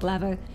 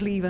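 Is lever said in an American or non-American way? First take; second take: American; non-American. First: The word is said the American way. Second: The word is said in a non-American way. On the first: The speaker calls it wrong. "not lever" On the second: The speaker calls it right. "I will stand by till my dying day that it is lever"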